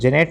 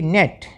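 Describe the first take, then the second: First: The word begins with a j sound. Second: The word begins with an n sound. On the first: The speaker calls it wrong. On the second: The speaker calls it right.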